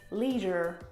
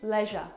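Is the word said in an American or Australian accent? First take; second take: American; Australian. First: American accent, with an audible r at the end. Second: Australian accent, looser, with no final r. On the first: "American pronunciation, leisure with the R" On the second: "And Australian pronunciation, leisure. Bit lazier"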